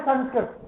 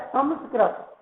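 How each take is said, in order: First: Sanskrit said with an n, "संस्कृत" as san-skrit; "संस्कृत" the everyday way, san-skrit; common pronunciation. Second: "संस्कृत" with an m, sam-skrit; careful "संस्कृत", said sam-skrit; correct pronunciation. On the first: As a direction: say "संस्कृत" with a plain n before the s. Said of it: "कुछ लोग इसे बोलते हैं". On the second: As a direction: sound the nasal dot in "संस्कृत" as m. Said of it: "शुद्ध शब्द क्या होता है". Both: Shown as a demonstration.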